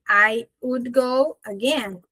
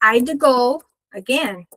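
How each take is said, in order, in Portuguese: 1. Would é dito por completo, como uma palavra separada. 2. Would é reduzido a um som de d depois de I.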